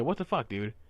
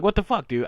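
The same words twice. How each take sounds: First: Said in the usual way. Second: Sharper, louder what the fuck dude; exasperated outburst. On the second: Retold or imitated. Retelling his fed-up reaction to a silent customer. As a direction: blurt it out fed up. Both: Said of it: "I actually said".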